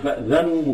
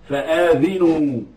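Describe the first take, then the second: First: The vowel after the first consonant is short. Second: The vowel after the first consonant is long. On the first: Be informed of war from God and His messenger. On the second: Inform others of war from God and His messenger.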